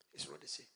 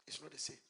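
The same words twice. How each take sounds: First: Low solemn repeat; deep dropped voice. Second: Said in the usual way. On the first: Shown as a demonstration.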